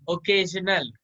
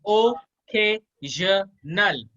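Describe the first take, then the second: First: Said in the usual way. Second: ओकेजनल in four slow, separated syllables. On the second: Shown as a demonstration. Teacher modelling pronunciation for the student, syllable by syllable. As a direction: break ओकेजनल into o, kay, zhuh, nal with gaps. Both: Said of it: "इसको कैसे pronounce करोगे".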